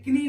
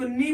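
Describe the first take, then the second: First: कनी with K ahead of N; mistaken sounded K. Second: नी starting on N; silent K. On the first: Teacher warns off the misreading, कनी with K. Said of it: "कनी नहीं पढ़ते हैं". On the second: Teacher shows students the reading, नी without K. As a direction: say नी with no K sound. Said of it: "इसको नी पढ़ते हैं". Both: Shown as a demonstration.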